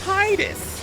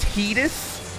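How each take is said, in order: First: The first syllable sounds like 'tide'. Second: The first syllable does not sound like 'tide'. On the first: This is the pronunciation the name ought to have. The speaker calls it right. "his name should be Titus" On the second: This is the official pronunciation. The speaker calls it wrong. "his name is pronounced Titus"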